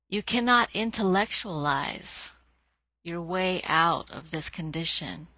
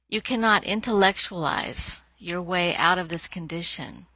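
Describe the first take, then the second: First: It is said at a slower, deliberate pace. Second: It is said at a normal, quicker pace.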